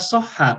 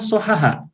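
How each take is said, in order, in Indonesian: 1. Konsonan yang berulang ditahan menjadi satu, yaitu rangkap. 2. Konsonan yang berulang dipisah oleh sebuah vokal di antaranya. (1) "yang digunakan adalah soha" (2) "bukan sohaha"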